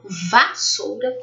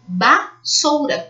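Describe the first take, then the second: First: The word begins with a V sound. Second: The word begins with a B sound. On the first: This is the way people say it now. "Agora elas falam vassoura, com V de Vera" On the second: This is the older way people said it. "Antigamente as pessoas falavam vassoura, com B de bola"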